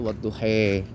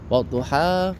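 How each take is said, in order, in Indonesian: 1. Kata itu berakhir dengan bunyi luncur 'ai'. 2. Kata itu berakhir dengan vokal 'a' biasa. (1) "dipengaruhi fonetik dan fonologi dari bahasa Spanyol dan Portugal" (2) "orang mestinya baca wadduha"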